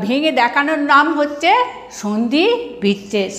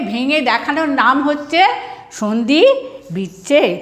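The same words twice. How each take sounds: The two takes are said the same way.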